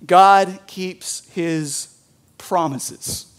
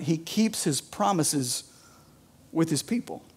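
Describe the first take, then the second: First: Every word slow and weighted, God stressed; slow emphatic point. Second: Quiet. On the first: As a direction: land the sermon point slowly. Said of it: "Number one". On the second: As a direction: say it softly, letting it sink in. Repeats his point softly. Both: Shown as a demonstration.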